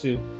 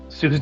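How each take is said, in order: First: The word ends without an s sound. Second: The word ends with an s sound. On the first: The speaker calls it right. "but I know it's Sue" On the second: The speaker calls it wrong. "I always read it that way"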